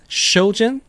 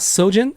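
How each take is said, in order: First: The name begins with an sh sound. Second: The name begins with an s sound. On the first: The speaker calls it right. "It's more like an S H sound" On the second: The speaker calls it wrong. "it's not Sojin"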